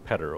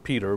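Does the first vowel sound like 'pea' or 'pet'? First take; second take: pet; pea. First: The first vowel is short, as in 'pet'. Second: The first vowel is long, as in 'pea'. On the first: The speaker calls it right. "but it's Petter, okay? That's an important pronunciation" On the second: The speaker calls it wrong. "it's not Peter"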